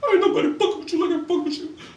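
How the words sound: It is said in a crying voice.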